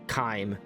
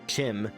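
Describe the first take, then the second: First: It begins with a k sound and long i. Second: It begins with a ch sound and short i. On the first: "I'd call it Chyme, as in chimera" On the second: "as in chimpanzee, sounds worse to my ears"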